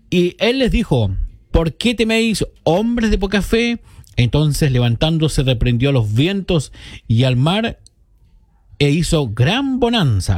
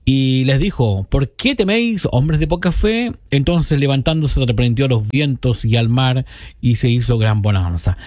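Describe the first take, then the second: First: Measured scripture reading, raised pitch on the question; solemn recital with a lifted, questioning quote; Bible verse reading. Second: Recited verse easing down to its close; repeated Bible verse. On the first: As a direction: read it out in phrases, pausing between them. Reads a Bible verse on air. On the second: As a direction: repeat the verse in a more running flow. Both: Acted.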